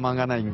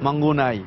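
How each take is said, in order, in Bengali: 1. দ্বিতীয় অক্ষরটি 'a' স্বরে উচ্চারিত হয়। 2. দ্বিতীয় অক্ষরটি 'u' স্বরে উচ্চারিত হয়। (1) "এই এমনই ভাবে হয়তো অনেকের মুখে উচ্চারিত হচ্ছে" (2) "আসলে ভেন্যুর নামটা আসলে মাউন্ট মাঙ্গুনাই"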